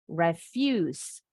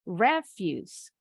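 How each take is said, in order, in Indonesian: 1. Tekanannya ada di suku kata kedua. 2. Tekanannya ada di suku kata pertama. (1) "Fuse-nya intonasinya lebih tinggi" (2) "Dari re-nya lebih tinggi intonasinya"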